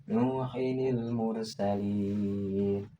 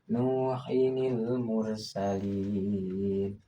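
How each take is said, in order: Both takes have the same delivery.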